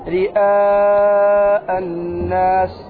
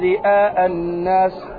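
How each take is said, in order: First: The long vowel is held for several beats. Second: The long vowel is held for one beat. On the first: The speaker calls it right. "أربع أو خمس حركات" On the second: The speaker calls it wrong. "ما تقول رئاء الناس حركة"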